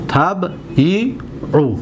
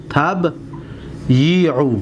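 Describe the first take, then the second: First: Slow modelling of تبیعو; drawn-out تبیعو. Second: تبیعو stretched very slowly, each vowel held; slow teacher demo of تبیعو; drawn-out تبیعو. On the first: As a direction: say تبیعو very slowly, each sound held. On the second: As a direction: model تبیعو sound by sound. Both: Shown as a demonstration. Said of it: "حرکت را دقت بتید".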